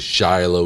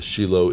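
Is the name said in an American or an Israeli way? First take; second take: American; Israeli. First: The name has an American-style pronunciation. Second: The name has an Israeli-style pronunciation.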